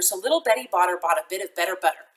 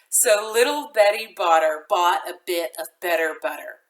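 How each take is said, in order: First: It is said very fast. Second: It is said moderately fast.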